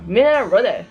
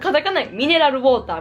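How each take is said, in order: First: It is said with native English sounds. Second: It is said with flat Japanese katakana sounds. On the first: The speaker calls it right. "もう本当の英語じゃなんかミネラルウォーターみたいな感じやから" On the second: The speaker calls it wrong. "もうカタカナミネラルウォーターみたいな感覚じゃないですか"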